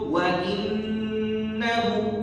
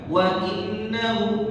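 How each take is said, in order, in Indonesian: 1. Bunyi n sengau ditahan selama dua ketukan. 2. Bunyi n pendek, tanpa tahanan sengau. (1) "Cukup wa innahu" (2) "berarti kita baca nunnya enggak ber, bertasydid, enggak bergun bergunnah"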